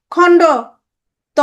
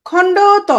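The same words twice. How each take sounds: First: খণ্ড said loud, then a long pause before ত; split with a pause. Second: খণ্ড ত run together as one word, said higher and louder. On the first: Teacher splitting the letter name for the class, slow with a pause. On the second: Teacher naming the letter for the class, run together. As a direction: say খণ্ড ত in one breath, with no gap. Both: Shown as a demonstration. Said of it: "মানে তয়ের খণ্ড রূপ".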